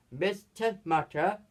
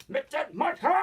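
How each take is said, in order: First: Said in the usual way. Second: High, strained imitation of a shout; mock cry. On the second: Storyteller imitating a cry of the name, mock cry. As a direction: call the name out, pitched up.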